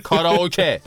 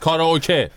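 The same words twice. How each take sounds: First: It is said Japanese-style, ending in 'keh'. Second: The same.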